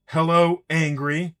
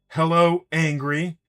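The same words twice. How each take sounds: First: It is said in an angry voice. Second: The same.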